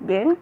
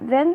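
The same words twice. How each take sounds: First: It has a changed British Black English pronunciation. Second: It has the standard English pronunciation. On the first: "diubah seperti pada kata then menjadi then" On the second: "pengucapan atau pronunciation yang diubah"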